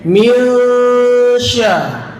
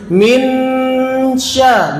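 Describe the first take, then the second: First: The n is hidden and nasalised into the sh. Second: The n is pronounced fully before the sh. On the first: The speaker calls it right. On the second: The speaker calls it wrong.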